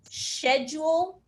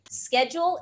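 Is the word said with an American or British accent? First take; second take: British; American. First: It is said with a British pronunciation. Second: It is said with an American pronunciation.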